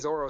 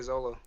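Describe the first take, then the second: First: The middle consonant is an R sound. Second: The middle consonant is an L sound. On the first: The speaker calls it wrong. "don't say Zoro" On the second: The speaker calls it right. "Say Zolo"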